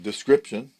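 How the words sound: It is pronounced the English way. "Instead of saying description"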